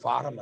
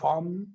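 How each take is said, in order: First: An extra vowel is inserted between r and m. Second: The r and m are joined with no vowel. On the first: The speaker calls it wrong. "ಫಾರಂ ಅಲ್ಲ" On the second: The speaker calls it right.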